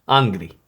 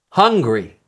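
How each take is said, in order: First: The h sound at the start is dropped. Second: The h sound at the start is pronounced.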